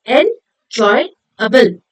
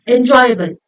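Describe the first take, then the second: First: Very slow 'enjoyable', broken into en-joy-able; syllable by syllable. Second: Said in the usual way. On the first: Shown as a demonstration. Teacher showing what it is made up of, syllable by syllable. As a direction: say 'enjoyable' in three separate beats. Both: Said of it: "made up of three syllables".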